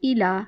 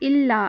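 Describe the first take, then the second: First: The l sound is single and short. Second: The l sound is doubled and held. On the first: The speaker calls it right. "अलग अलग करके" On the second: The speaker calls it wrong. "हमज़ा को लाम के साथ मिलाना नहीं है, तशदीद नहीं है"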